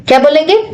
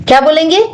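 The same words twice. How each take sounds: Both takes have the same delivery.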